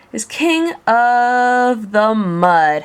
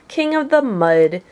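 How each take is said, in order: First: Mocking drawn-out phrase. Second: Said in the usual way. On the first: A narrator's reading. Mocking Yertle's fall.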